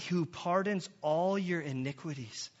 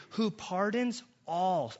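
First: "all" held long and stressed, pitch falling. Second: "all" slowed and leaned on, falling; stress on all. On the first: Preacher reading the verse, emphatic "all". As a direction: weigh down on the word "all". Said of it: "I have circled all". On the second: Preacher stressing "all" to the congregation, slow emphasis. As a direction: lean hard on "all", the whole of it. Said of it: "It doesn't say some". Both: Shown as a demonstration.

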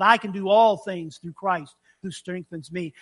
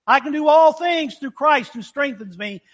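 First: Sincere conviction. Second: Louder and higher, punching "all" like a rally cry; sports slogan cheer. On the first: Shown as a demonstration. Preacher restates the verse knowing Paul's suffering, sincere. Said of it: "if you realize what he went through". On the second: Retold or imitated. Preacher mimics athletes chanting the verse, loud and pumped. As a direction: belt it out like a pumped-up team chant. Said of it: "We say that in sports a lot".

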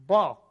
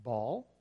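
First: Louder, higher Kentucky "Ball"; mimicked Kentucky "Ball"; Kentucky accent. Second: Said in the usual way. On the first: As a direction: punch "Ball" with a falling Kentucky twang. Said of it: "how they would say ball". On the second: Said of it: "in Ironton, I would say".

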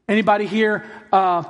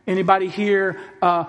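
The two takes are said the same way.

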